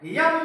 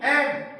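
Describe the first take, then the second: First: It begins with a y sound before the vowel. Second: It begins directly with a vowel sound. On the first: The speaker calls it wrong. "यम नहीं" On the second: The speaker calls it right. "नहीं एम"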